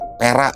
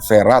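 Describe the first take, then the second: First: The name begins with a P sound. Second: The name begins with a V sound. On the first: "orang Sunda kan nggak bisa ngomong F, jadi Pera dia orang sana bilangnya" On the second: "Tulisannya V, v ya"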